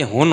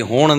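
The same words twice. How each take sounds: First: ہن said "hun", short u and plain n; corrected Punjabi word. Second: ہون said "hoon", long vowel, curled-back n; wrong Punjabi form. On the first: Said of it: "انہوں نے بتایا کہ ہن ہوتا ہے". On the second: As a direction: draw out ہون as hooṇ. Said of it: "یہ ہون نہیں ہوتا". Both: Shown as a demonstration.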